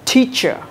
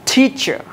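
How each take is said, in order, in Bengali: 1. t উচ্চারণ করা হয় ইংরেজি পদ্ধতিতে। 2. t উচ্চারণ করা হয় ইংরেজি পদ্ধতিতে।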